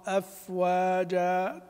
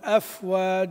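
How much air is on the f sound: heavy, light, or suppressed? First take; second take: light; heavy. First: The f has a light, moderate puff of air. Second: The f has a heavy, exaggerated puff of air. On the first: The speaker calls it right. "لكن خروج هذا الهواء يكون باعتدال" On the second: The speaker calls it wrong. "ما أقول أفواج أف أف تفجير، لا باعتدال"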